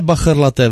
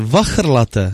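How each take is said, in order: First: The word begins with a b sound. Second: The word begins with a v sound. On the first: The speaker calls it wrong. "Ne bachrlaté" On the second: The speaker calls it right.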